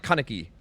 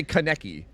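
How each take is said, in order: First: Kaneki as KAH-nuh-kee, first syllable stressed; KANEKI her way. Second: Kaneki as kuh-NECK-ee, middle syllable stressed; KANEKI the rejected way. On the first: Retold or imitated. Streamer copying how she says it in the clip, Kaneki front-stressed. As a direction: hit the front of Kaneki, let the rest drop. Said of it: "She says, like". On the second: Shown as a demonstration. Streamer showing what she doesn't say, Kaneki stressed on the middle. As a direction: punch the NEK in Kaneki. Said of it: "But she doesn't say".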